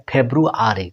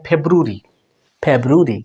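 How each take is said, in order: First: "ফেব্রুয়ারি" in full, feb-ru-a-ri; American pronunciation. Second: "ফেব্রুয়ারি" shortened to feb-ru-ri; British pronunciation. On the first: Teacher shows learners American February, all syllables sounded. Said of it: "আমেরিকানে". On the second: Teacher shows learners British February, shortened to feb-ru-ri. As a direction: squeeze "ফেব্রুয়ারি" into three syllables, no "a". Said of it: "ব্রিটিশে এটা উচ্চারণ করা হয়". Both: Shown as a demonstration.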